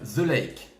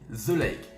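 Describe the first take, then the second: The two takes are said the same way.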